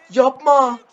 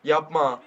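First: Loud. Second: Said in the usual way. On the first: Real, not acted.

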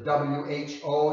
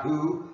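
First: "W H O" said as three separate letter names; spelled out. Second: "who" said as one syllable, like the pronoun; read as a word. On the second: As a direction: say "who" as a single word, rising at the end. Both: Shown as a demonstration. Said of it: "that's not who".

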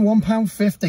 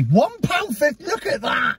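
First: Said in the usual way. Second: High, amazed TV valuer; excited appraiser. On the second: Pretend. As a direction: marvel at the price like an antiques expert. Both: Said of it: "I'll do Antiques Roadshow on it".

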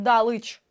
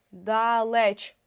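First: ДАЛИЧ with И in the second syllable; И замість Е. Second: ДАЛЕЧ slowly, with a full clear Е; чітке Е. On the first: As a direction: end the word as -лич in ДАЛИЧ. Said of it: "Ми не знаємо". (ДАЛИЧ з И у другому складі) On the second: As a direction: sound out ДА-ЛЕЧ with a distinct Е. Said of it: "принцип перевірки наголосом". (ДАЛЕЧ повільно, з виразним Е) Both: Shown as a demonstration.

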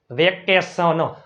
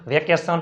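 First: વેકેશન slow, syllables distinct, ending "sono"; sounded-out demo. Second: Said in the usual way. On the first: Shown as a demonstration. Teacher spelling from pronunciation, વેકેશન sounded out slowly. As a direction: spread out વેકેશન as "ve-ke-so-no". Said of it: "ઉચ્ચાર ઉપરથી spelling". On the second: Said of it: "આઇટ અને ઈ R વાળા શબ્દ".

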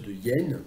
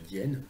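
First: "de hyènes" with a full "de" before "yène", slow; everyday unelided pronunciation. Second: "d'hyènes" as one word, "dyène", lower and softer; correct elision. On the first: Translator reading his translation, no elision. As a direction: keep "de" apart from "hyènes". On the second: Translator playing smart aleck, elided form. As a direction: elide "de" straight into "hyènes" as an aside. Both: Shown as a demonstration. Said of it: "faire le malin".

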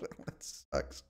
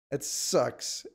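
First: Breathy whispered mutter, almost no voice. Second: Said in the usual way. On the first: Real, not acted. Streamer ruined by Lithuania, whispering to himself. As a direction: breathe it out under your breath.

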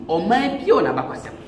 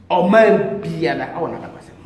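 First: Said in the usual way. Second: Ɔman biara a wɔ n'abakwasɛm said slowly, each word weighted; slow emphatic repeat. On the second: Real, not acted. Priest insisting every nation has its history, slow and emphatic. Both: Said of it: "repeated for emphasis".

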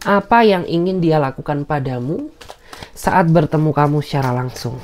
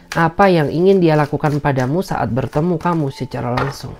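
No difference in how they are said.

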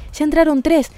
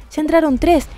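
No difference in how they are said.

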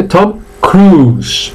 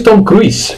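First: "Cruise" as "crus", no I; slow "Cruise" on one long u; silent I. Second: "Cruise" as "cru-is", the I heard; wrong, I sounded. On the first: Teacher gives the right form, "Cruise" with silent I. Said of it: "Veis que la I no suena". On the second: Teacher shows the common error, "Cruise" with sounded I. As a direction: mistaken "Cruise" with a "ui" glide. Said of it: "No es Tom Cruise". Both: Shown as a demonstration.

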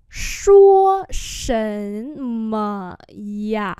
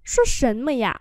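First: Long, separate syllables; slow model for learners; slow demonstration. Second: Said in the usual way. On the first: Shown as a demonstration. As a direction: stretch each word out. Teacher repeats phrase slowly.

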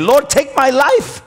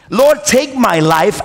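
First: High, pleading cry to God; desperate plea. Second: Slow, heavy repeat of the plea; weary plea. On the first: Elijah under the tree, crying out to God, high desperate plea. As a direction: cry it out like a broken prophet begging to die. Elijah's despairing prayer retold. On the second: The prophet repeating his prayer to God, slow weary plea. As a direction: let it sink, slower and wearier. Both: Retold or imitated.

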